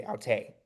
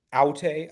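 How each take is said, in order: First: "aute" leaning on the final "te"; stress on last syllable. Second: "aute" punched on the opening "au"; stress on first syllable. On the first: Tutor shows student the accent, "aute" stressed at the end. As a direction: hit TAY at the end of "aute". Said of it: "the accent is on the last syllable". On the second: Tutor shows student the wrong take, "aute" stressed up front. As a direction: hit AU in "aute", let "te" drop. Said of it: "accent is on the last syllable, instead of saying". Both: Shown as a demonstration.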